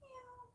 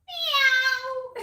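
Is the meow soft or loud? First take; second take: soft; loud. First: The meow is soft and light. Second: The meow is loud and forceful.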